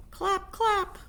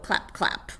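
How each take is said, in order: First: "Clap, clap" much higher, sung; squeaky clap. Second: Unvoiced whispered "clap, clap". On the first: Acted. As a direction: chirp "Clap, clap" up high. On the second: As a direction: breathe "clap, clap" with no voice. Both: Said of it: "He began to sing".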